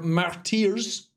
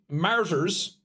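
First: The word has a French pronunciation. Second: The word has an English pronunciation.

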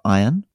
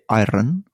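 First: It has an English accent with no rolled R. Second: It has a Scottish accent with a rolled R. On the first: "instead of iron" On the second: "He would say iron, for example, ... His R's were very aggressively rolled"

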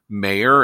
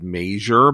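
First: The name has no 'j' sound in the middle. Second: The name has a 'j' sound in the middle. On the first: The speaker calls it right. "apparently it's pronounced Mayer" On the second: The speaker calls it wrong. "I said Major"

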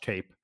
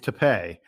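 First: It sounds like the word tape, one syllable. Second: It has two syllables ending like pay. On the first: The speaker calls it wrong. "It is not pronounced tape like scotch tape" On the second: The speaker calls it right. "It is tape"

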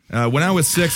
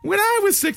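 First: It is read in a normal adult voice. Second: It is read in a childish put-on voice.

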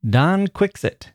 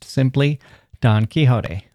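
First: Quixote is said rhyming with thicksot. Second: Quixote is said closer to the Spanish. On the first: This is an old British form. "as my British professor used to say" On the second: This is the commonly known form. "as we know it best"

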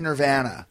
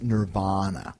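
First: The middle vowel has the Canadian pronunciation. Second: The middle vowel has the American pronunciation. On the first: "We say Nirvana" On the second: "now I've been schooled that it's Nirvana"

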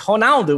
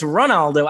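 First: The name is said with a Portuguese pronunciation. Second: The name is said with an English pronunciation.

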